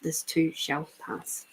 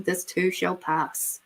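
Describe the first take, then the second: First: Same saying again, almost murmured; softer repeat. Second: Soothing saying. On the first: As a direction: let it fade into a hush. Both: Shown as a demonstration. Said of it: "there's that good old saying".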